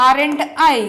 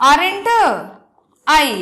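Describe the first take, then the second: First: Said in the usual way. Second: Aren't with a long pause before I; slow spelled-out tag. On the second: Shown as a demonstration. Teacher builds the answer word by word, pausing between words. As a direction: say Aren't, wait, then I. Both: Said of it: "ఇప్పుడు answer ఏమవుతుంది?".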